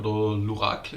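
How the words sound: The name is said with a French pronunciation.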